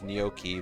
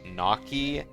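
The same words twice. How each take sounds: First: The first vowel is an 'oh' sound. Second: The first vowel is an 'ah' sound. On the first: "I always thought the O in gnocchi had like an O sound" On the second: "this says gnocchi"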